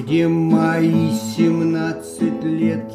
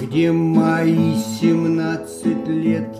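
First: The word мои carries the main stress. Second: The word мои carries the main stress.

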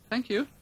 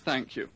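First: It is said timidly and shyly. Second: It is said in a plain, neutral way.

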